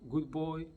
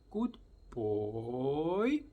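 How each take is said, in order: First: It is said in a flat, bored tone. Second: It is said in a lively, excited tone.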